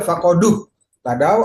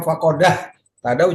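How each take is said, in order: First: The d is followed by a u vowel. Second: The d is followed by an a vowel. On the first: "Nggak boleh" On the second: "juga tidak"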